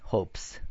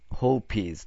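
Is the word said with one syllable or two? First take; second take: one; two. First: The word ends in a breathy s sound. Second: The ending adds an extra syllable after hope. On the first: The speaker calls it right. "息だから、スだよね" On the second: The speaker calls it wrong. "HOPEES とは言わないよね"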